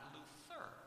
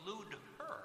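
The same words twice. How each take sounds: First: The middle consonant is a t sound. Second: The middle consonant is a d sound. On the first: This is the later, changed form of the name. "not Luther" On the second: This is the original form of the name. "originally his name was Luther"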